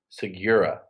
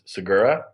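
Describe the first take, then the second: First: The name is said with an English-style pronunciation. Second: The name is said as spelled, Spanish-style. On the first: This is how the family traditionally said it. "my father and his father pronounced it" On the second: This is how the name is meant to sound. "it's supposed to be pronounced phonetically"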